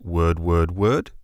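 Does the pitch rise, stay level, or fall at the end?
rise. The pitch rises at the end like a question.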